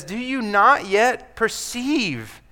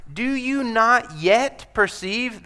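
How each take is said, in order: First: Slow, leaning hard on "not"; Jesus pleading with the disciples; slow pressing question. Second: Higher and slow, leaning on not; a pleading question from the teacher; slow searching question. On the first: Repeats the same quote. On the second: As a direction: ask it slowly, pressing on "not". Preacher voicing Jesus' question. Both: Acted.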